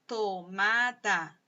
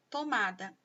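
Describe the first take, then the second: First: "Tomada" stretched into three separate syllables. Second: Said in the usual way. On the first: Shown as a demonstration. Teacher showing pupils the word's sounds, "Tomada" syllable by syllable. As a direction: say "Tomada" slowly, one beat per syllable. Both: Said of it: "sílaba por sílaba".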